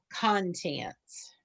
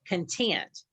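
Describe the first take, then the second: First: The stress is on the first syllable. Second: The stress is on the second syllable. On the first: The things inside something, as in a table of contents. "you'll put the accent on the first syllable" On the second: Being happy or satisfied. "accent on the second syllable"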